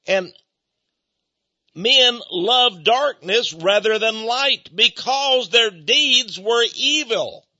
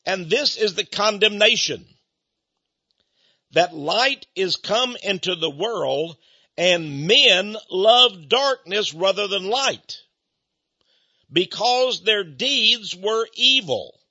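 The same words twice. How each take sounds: First: Emphatic preaching. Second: Slow, measured Bible reading; scripture reading. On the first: Preacher pressing the verse on the congregation, slow and emphatic. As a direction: drive each word of the verse home. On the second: Preacher reading verse nineteen to the congregation, slow and grave. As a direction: read the verse out slowly and gravely. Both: Acted.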